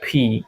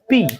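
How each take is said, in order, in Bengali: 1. p ধ্বনিটি মহাপ্রাণ, ফুঁ সহ। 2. p ধ্বনিটি অল্পপ্রাণ, কোনো ফুঁ ছাড়া। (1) "বাট এটার উচ্চারণটা ফি" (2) "এটাকে আমরা সাধারণত পি বলে থাকি"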